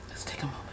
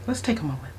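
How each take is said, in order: First: "Let's take a moment" whispered, much softer. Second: Composing herself. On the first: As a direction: breathe it out as a whisper. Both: Real, not acted.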